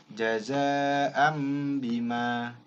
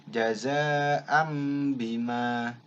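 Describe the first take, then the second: No difference in how they are said.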